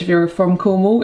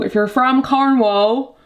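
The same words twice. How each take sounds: First: Said in the usual way. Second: Slow, higher, hammed-up Cornwall accent; put-on Cornish accent, badly done. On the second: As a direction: draw it out in a terrible Cornish accent. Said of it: "that was the worst accent".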